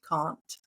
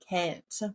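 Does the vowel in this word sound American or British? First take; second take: British; American. First: The vowel has a British-sounding quality. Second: The vowel has an American-sounding quality. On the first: This is how Australians say it. "have that British sound" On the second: This is how the speaker herself says it. "a lot of Australians here think that I sound American"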